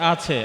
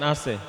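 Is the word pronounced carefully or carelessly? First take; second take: carefully; carelessly. First: The word is pronounced carefully and fully. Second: The word is pronounced carelessly and imprecisely. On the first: The speaker calls it right. "এখন শব্দটা হচ্ছে আছে" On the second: The speaker calls it wrong. "আপনি বলতেছেন আছে"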